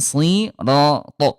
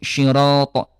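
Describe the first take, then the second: First: The word begins with a thick s sound. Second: The word begins with an sh sound. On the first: The speaker calls it right. "harusnya tetap shad ya sirato" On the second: The speaker calls it wrong. "suka dibaca syiratal ladzina syi syirato. Nah, itu bunda salah"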